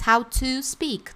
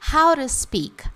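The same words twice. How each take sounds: First: 'To' is said fully, like the number two. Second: 'To' starts with an American R-like flap.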